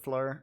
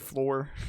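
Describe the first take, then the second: First: The vowel sounds like the one in 'fur'. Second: The vowel sounds like the one in 'floor'. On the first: The speaker calls it right. "I'm pretty sure it's pronounced like Fleur" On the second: The speaker calls it wrong. "I always pronounce her name wrong. I, I say Floor"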